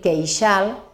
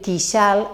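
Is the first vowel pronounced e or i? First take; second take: e; i. First: The first vowel is pronounced e. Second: The first vowel is pronounced i. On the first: The speaker calls it right. "hem de dir queixal" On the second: The speaker calls it wrong. "no hem de dir quixal"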